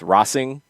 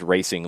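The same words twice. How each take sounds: First: The word is pronounced the Spanish way. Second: The word is pronounced the English way.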